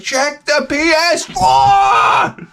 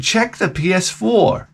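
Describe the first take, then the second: First: Very high, drawn-out shout; climactic yell. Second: Slow, slightly raised, measured order; solemn instruction. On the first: Dad ordering his son to look, climactic yell. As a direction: bellow it slowly at the music's crescendo. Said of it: "music is coming to this cres-, crescendo". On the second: Dad telling his son to look, solemn instruction. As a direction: say it slowly and portentously. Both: Retold or imitated.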